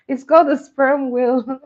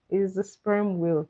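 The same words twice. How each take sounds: First: Louder and higher, half laughing; amused exclaiming; laughing loud correction. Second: Said in the usual way. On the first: Real, not acted. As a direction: set them straight through laughter.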